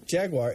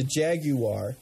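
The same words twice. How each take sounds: First: "Jaguar" in two syllables, JAG-war; quick two-beat "Jaguar", no separate U; American Jaguar. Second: "Jaguar" in three syllables, JAG-you-ar; mock-particular "Jaguar" with a separate "you"; British-style Jaguar. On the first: Shown as a demonstration. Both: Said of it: "they get pretty particular".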